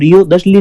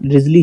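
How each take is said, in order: First: It is said as three syllables, rio-thes-ly. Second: It is said as two syllables, riz-ly. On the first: The speaker calls it wrong. "इनको रियो दशली नहीं पढ़ना है" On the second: The speaker calls it right. "इनका रिजली ही पढ़ना है"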